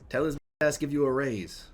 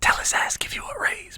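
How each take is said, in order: First: It is spoken in a normal full voice. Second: It is spoken in a quiet whisper.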